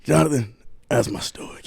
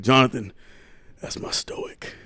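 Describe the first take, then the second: First: Said in the usual way. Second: Imitating dad, last words breathed out; hushed mock dad. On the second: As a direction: breathe out that's my stoic, unvoiced. Dad quoted describing brother.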